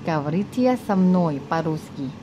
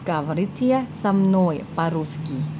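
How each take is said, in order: No difference in how they are said.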